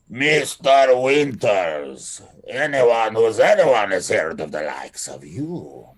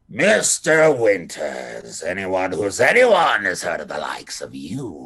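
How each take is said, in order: First: It is spoken in a Russian accent. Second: It is spoken without a Russian accent, still harsh. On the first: "he doesn't have a Russian accent" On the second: "it's not as harsh"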